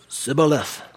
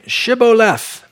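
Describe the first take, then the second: First: The word begins with an s sound. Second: The word begins with an sh sound. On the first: The speaker is an Ephraimite. The speaker calls it wrong. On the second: The speaker is from Gilead. The speaker calls it right.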